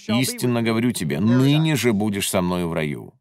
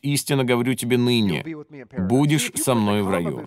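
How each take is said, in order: First: The pause comes before the word 'ныне'. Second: The pause comes after the word 'ныне'.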